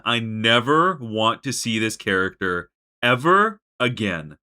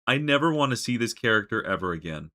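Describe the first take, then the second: First: Slow, loud, every word of "never want to see this character ever again" hammered; fed-up vow. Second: Said in the usual way. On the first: Real, not acted. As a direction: spit it out slowly, done with him. Repeating the vow with more force.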